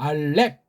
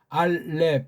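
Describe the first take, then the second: First: The final p is closed firmly and sharply. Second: The final p is closed gently and softly. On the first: The speaker calls it right. "세게 입을 아래 위를 딱 닫아야 이 피읍 받침이 나잖아요" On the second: The speaker calls it wrong. "알렙 하고 부드럽게 입을 닫는 것이 아니라"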